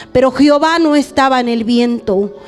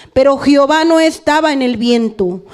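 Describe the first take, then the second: Both takes have the same delivery.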